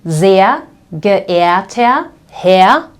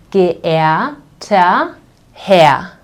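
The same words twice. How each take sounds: First: Sehr geehrter Herr said very slowly, each R turned to ah; slow careful demo. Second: Geehrter Herr drawn out very slowly, endings like ah; slow R-as-A demo. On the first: Teacher slowly modelling an email greeting for learners. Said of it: "you will write". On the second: Teacher repeating the greeting slowly to show the R sound. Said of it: "these two R's will be pronounced like A". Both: Shown as a demonstration.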